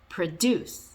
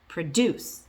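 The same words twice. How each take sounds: First: The stress is on the second syllable. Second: The same.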